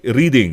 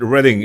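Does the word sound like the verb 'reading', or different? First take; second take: like verb; different. First: It sounds like the verb 'reading'. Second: It sounds unlike the verb 'reading'. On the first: It is read as it is spelled. "I'm reading this book" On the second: It is how local people say it. "But why is it Reading?"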